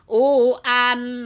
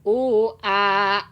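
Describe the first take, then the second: First: It ends with a clearly sounded n. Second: It ends in a long vowel without n. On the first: The reader continues into the next word. "kalau disambung ... nah sekarang idhar" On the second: The reader stops on this word. "jadi panjang dua harkat karena tanwin dibuang, diganti ku alif"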